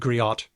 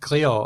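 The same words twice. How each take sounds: First: The final T is pronounced. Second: The final T is silent. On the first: The speaker calls it wrong. "like an idiot pronouncing it griot" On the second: The speaker calls it right. "it's pronounced griot"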